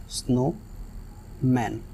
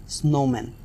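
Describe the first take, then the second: First: snowman drawn out slowly and softly as snow... मैन; split into syllables. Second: Said in the usual way. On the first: Shown as a demonstration. Teacher demonstrating the syllable split to the class, slow and soft. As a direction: pull snowman apart at the syllable break. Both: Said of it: "एक अलग word है और snow एक अलग word है".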